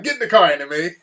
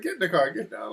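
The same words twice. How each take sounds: First: Firm order at near-usual pitch; insist, with the voice back up; retold firm urging. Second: Higher, softer hurried order; retold hushed urging. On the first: Husband repeating himself to wife, retold firm urging. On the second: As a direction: urge her along, keeping it down. Husband hurrying loud wife into car.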